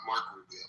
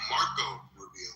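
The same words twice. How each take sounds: First: "Mark Rubio" with "Mark" cut short and no "-o"; imitating the mistake "Mark Rubio", softer; quoting the wrong "Mark Rubio"; mock wrong name. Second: "Marco Rubio" said in full, both syllables of "Marco"; "Marco Rubio", with the "-o" on "Marco" clear; Marco Rubio correctly. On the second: Shown as a demonstration. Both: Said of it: "not Mark Rubio".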